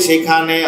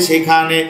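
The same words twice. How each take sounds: No difference in how they are said.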